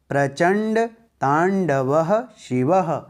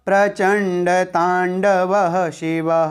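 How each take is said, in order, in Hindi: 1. शब्द के भाग छोटे विराम के साथ अलग-अलग बोले जाते हैं। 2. शब्द के भाग बिना विराम के एक साथ जुड़कर बोले जाते हैं। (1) "अब ग्यारहवें श्लोक को कैसे पढ़ेंगे?" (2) "अब इसे एक साथ कैसे बोलेंगे?"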